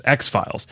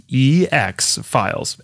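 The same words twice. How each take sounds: First: Said in the usual way. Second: E drawn out, slowly spelled before FILES; spelled-out code. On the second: Shown as a demonstration. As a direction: stretch the letter E, then X FILES. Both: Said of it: "that's E X Files".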